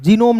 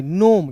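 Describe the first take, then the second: First: जीनोम with the G sounded; the wrong way: जीनोम; wrong pronunciation shown. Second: नोम with a silent G, a bit low; right way: नोम, G dropped; correct pronunciation. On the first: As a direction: say जीनोम, G spoken aloud. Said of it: "नहीं". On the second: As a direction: say नोम, no G sound. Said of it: "जीनोम नहीं". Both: Shown as a demonstration.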